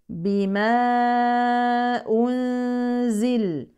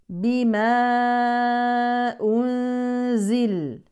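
The two takes are said the same way.

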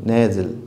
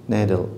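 Both takes have the same delivery.

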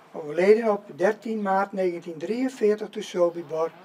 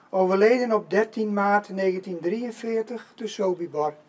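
The two takes are said the same way.

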